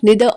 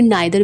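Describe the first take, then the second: First: The first vowel sounds like 'ee'. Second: The first vowel sounds like 'eye'.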